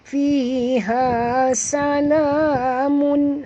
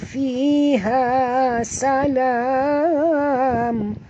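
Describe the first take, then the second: First: The phrase continues through to the -un ending. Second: The phrase stops on the final m, lengthened before. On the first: The reader carries on without stopping. "kalau kita tak matikan, dia tak jadi mat arid disukun. Dia hanyalah mat asli" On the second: The reader stops at this word. "sebab kita berhenti bunyi dia fiha salam"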